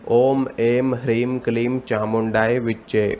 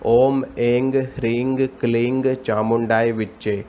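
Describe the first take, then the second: First: The seed syllables end in an m sound. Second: The seed syllables end in an ng sound. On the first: "कुछ लोग इसको इस तरह पढ़ते हैं" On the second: "कुछ लोग इसको इस तरह पढ़ते हैं"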